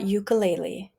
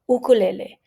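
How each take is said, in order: First: The vowels sound English-like, anglicized. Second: The vowels sound full and Hawaiian-like. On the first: The speaker calls it wrong. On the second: The speaker calls it right.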